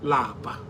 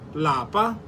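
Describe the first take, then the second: First: The word is said with a low tone. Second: The word is said with a high tone. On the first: It means to be tired. "Lower tone, which lapa. Lapa means to be tired" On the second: It means home. "In higher tone, lapa means home"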